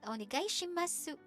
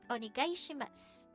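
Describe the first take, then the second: First: The final u of shimasu is clearly pronounced. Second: The final u of shimasu is silent. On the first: The speaker calls it wrong. "It's not onegai shimasu" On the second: The speaker calls it right. "It's like a silent U"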